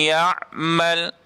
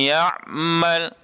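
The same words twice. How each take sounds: No difference in how they are said.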